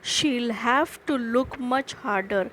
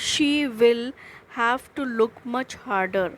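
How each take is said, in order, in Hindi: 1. दोनों शब्द मिलकर एक ही syllable बन जाते हैं, she'll. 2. दोनों शब्द अलग-अलग बोले जाते हैं, she will. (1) "you have to pronounce it like this" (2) "It is the short form of"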